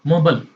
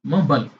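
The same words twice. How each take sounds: First: It is said in an American accent. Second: It is said in an American accent.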